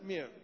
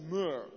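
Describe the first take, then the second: First: The vowel sounds like the one in 'here'. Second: The vowel sounds like the one in 'her'. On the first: The speaker calls it wrong. "niet meer" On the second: The speaker calls it right. "Dat is mur"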